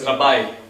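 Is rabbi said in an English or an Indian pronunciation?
English. It is said with an English pronunciation. The speaker calls it right. "actually they are pronounced as rabbi"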